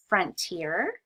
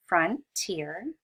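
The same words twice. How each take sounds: First: Frontier said slowly, rising at the end; modeling frontier. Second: "frontier" split into two clear syllables, rising; modeling frontier again. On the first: Teacher models the word for children, rising tune. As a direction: sound out "Frontier" with a lifted end. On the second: Teacher repeats the vocabulary word for students, clear and rising. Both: Shown as a demonstration. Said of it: "two syllables in that one".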